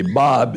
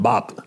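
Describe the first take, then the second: First: Said in the usual way. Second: "Bop" with a hard final p; Cuban-accented Bob. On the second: Retold or imitated. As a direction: say "Bop", ending on a popped p instead of b. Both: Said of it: "it sounded like Bop".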